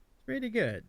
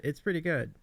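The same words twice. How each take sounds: First: Lightly put-on Eastern European accent, pitched higher; mock Eastern European accent. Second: Said in the usual way. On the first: Streamer echoes the cat's Eastern European accent, mock. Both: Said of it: "there's this Eastern European accent thing".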